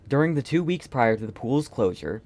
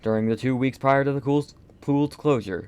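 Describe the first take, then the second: First: It is read in the speaker's ordinary voice. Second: It is read in an altered, put-on voice.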